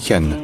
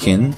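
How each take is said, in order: First: "Hen" with a clear full e vowel; a distinct vowel in "Hen"; wrong with full vowel. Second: "Hin" with the vowel swallowed into a held N; long syllabic N. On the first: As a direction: say "Hen" with a real vowel before the N. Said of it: "pas besoin de dire une vraie voyelle". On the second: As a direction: stretch the N of "Hin", barely any vowel. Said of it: "il est prononcé suffisamment longtemps". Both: Shown as a demonstration.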